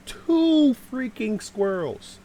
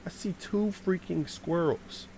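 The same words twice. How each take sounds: First: TWO drawn out, high and loud; slow, indignant repeat with a long, punched Two; emphatic disbelief. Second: Said in the usual way. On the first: Retold or imitated. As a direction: stretch the word Two in high-pitched disbelief. Repeats his discovery in disbelief.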